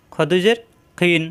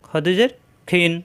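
Both takes have the same delivery.

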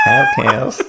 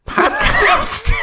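First: Laughing high-pitched American "Podcast" with flat a; echoing the American "Podcast" in a laugh; American accent. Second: Laughing American "podcast" pronounced pʰɑdkæst, high and loud; hammy American twang on "podcast"; American accent. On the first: Copying his co-host's American "Podcast". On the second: Mocking an American saying "podcast". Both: Shown as a demonstration. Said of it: "Very American".

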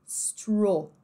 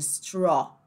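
First: "Straw" with rounded closed oh; British closed vowel. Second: "straw" with wide open aw; American open vowel. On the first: Teacher isolating the British sound, closed "Straw". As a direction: round "Straw" towards stroh. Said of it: "Agora, britânico". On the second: Teacher contrasting with British, open-vowel "straw". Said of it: "ao invés de". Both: Shown as a demonstration.

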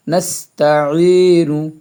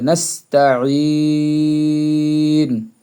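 First: "নাস্তাইনু" chanted with short final "nu"; moderately held "ই", ending on a short vowel in "নাস্তাইনু"; joined reading. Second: "নাস্তাইন" stopped on n after a very long vowel; waqf, pausal reading. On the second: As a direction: draw out the last vowel of "নাস্তাইন", close on n. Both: Shown as a demonstration. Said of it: "ওকফ করলে".

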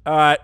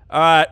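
Both takes have the same delivery.

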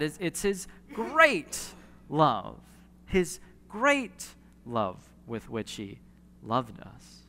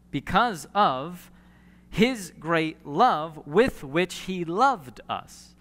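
First: Slow, with weight on "great" in "his great love"; stress on great. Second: Slow and deliberate, leaning on "love" both times; slow emphatic scripture reading. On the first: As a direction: marvel at the greatness, slowly. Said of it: "it's added on to that". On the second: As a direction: read "because of his great love with which he loved us" slowly, weighing each "love". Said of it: "Love is repeated twice". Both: Shown as a demonstration.

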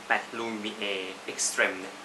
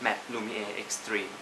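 First: "Extreme" said the French way, ending "แตรม" not "ตรีม"; "Extreme" with a short French "-trem" ending, said slowly; French-style Extreme. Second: "Extreme" said the English way, "เอ็กซ์ตรีม"; "Extreme" with a long English "-treem" ending, said softly; English-style Extreme. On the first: Reading the brand name the French way, "Extreme" ending in "-trem". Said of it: "ไปถามที่เคาน์เตอร์เขาบอกว่า อ่านว่า Extreme ค่ะ". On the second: How some people read the brand, "Extreme" as "-treem". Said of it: "บางคนก็อ่านว่า Extreme". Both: Shown as a demonstration.

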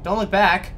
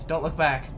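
First: Louder, higher panicked plea; panicked shout. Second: Said in the usual way. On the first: Real, not acted. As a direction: shout it while fleeing.

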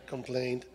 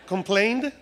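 First: "Complained" low and soft, as a statement; settled pronunciation. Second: "Complained" with a rising questioning tune; questioning pronunciation. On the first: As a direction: settle quietly on "Complained" with a lowered voice. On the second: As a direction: try out "Complained" as if unsure, voice lifting at the end. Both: Shown as a demonstration. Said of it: "I'm just practicing my English".

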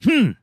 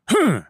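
First: Said in the usual way. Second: High, loud snooty hmm; a sharp, judging hum aimed at me; disapproving hmm. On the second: Retold or imitated. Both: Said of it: "She gives me a".

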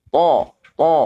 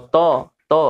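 First: To heavy, with the back of the tongue raised; thick istila to. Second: To light, tongue back left down; wrong ordinary to. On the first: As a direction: say "To" dark and full in the back of the mouth. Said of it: "kalau to ini naik". (To tebal, pangkal lidah naik) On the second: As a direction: say "to" as a thin everyday t with o. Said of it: "biasa aja". (to biasa, tidak tebal) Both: Shown as a demonstration.

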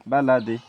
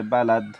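First: বা, লা, দি run together, ending in a voweled di; joined form. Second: বালাদ ending on a stopped d; balad, cut off at the final consonant; pausal stop. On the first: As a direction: say বা, লা, দি as baladi, final i sounded. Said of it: "ওয়াকফ করিলে বালাদ". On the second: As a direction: close বালাদ on d with no final vowel. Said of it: "ওয়াকফ করিলে". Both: Shown as a demonstration.

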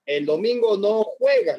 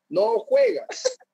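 First: Slow, even teasing warning. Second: Drawn-out, much higher teasing singsong; sing-song taunt. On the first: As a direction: say it slowly, as a matter-of-fact threat. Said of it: "y le dice". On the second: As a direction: stretch it up high like a schoolyard taunt. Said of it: "le dice". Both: Retold or imitated.

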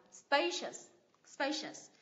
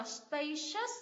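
First: SPA in "spacious" strong, ending falls; first-syllable stress. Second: "spacious" with the second syllable held up and heavy; wrong final stress. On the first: Teacher corrects spacious, stress on the first syllable. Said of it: "Nhấn tiếp thứ nhất". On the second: Teacher shows the mistake in spacious, stressing the last syllable. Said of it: "Thay vì đọc là". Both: Shown as a demonstration.

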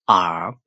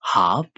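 First: Herb with silent H, like "up"; American herb. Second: Herb with a sounded H, like "hub"; British herb. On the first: Teacher recaps for learners, American herb without H. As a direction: drop the H in herb. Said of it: "H အတန်လေးကိုဖျောက်". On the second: Teacher recaps for learners, British Herb with H. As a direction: start Herb on a clear H. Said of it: "U K လို့ခေါ်တဲ့ British accent". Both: Shown as a demonstration.

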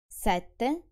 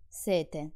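First: Sette with a long tt; seven, doubled; double tt held. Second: Sete with a short t; quick t in sete; thirsty, single. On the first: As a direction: hold the tt in Sette. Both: Shown as a demonstration. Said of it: "pay additional attention".

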